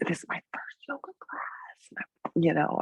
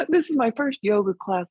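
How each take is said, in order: First: Hushed, whispery imitation of a nervous beginner; nervous newcomer. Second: Voiced aloud, higher-pitched mock protest; student clarifying. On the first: New student confessing to the yoga teacher, nervous whisper. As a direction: mimic a timid student confiding under the breath. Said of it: "they'd be really nervous". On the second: Student justifying the claim to teacher, lightly protesting. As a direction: imitate a student explaining what they really meant.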